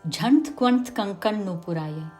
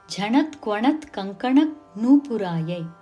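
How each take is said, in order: First: Short vowels between consonants are dropped. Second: Every short vowel between consonants is pronounced. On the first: The speaker calls it wrong. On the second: The speaker calls it right.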